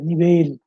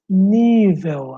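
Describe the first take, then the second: First: The stress is on the last syllable. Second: The stress is on the second-to-last syllable. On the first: This is the Spanish form of the word. "a sílaba tônica está na última aqui" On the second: This is the Portuguese form of the word. "Em português, nível, acentuado, porque é uma paroxítona"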